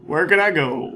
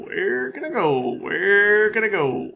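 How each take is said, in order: First: Said in the usual way. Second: Silly mock panic. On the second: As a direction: stretch "Where can I go?" slowly in a goofy voice. Panicking in game.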